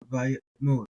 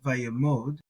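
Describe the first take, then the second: First: A small throaty catch breaks the middle of the word. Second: The word flows through without a catch in the middle. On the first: "put a little sort of hiccup or pause" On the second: "So via mode is one way to do that"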